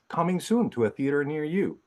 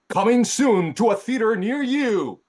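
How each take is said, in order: First: It is said in a plain, normal way. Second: It is said in a big, epic trailer way.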